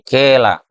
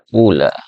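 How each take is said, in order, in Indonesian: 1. Vokal pertama adalah i yang dicampur dengan u. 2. Vokal pertama adalah u yang jelas. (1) "Itu mencampur harokat kasroh dengan sedikit dari suara dhammah" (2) "Anda juga dapat mendomahkan fa-nya"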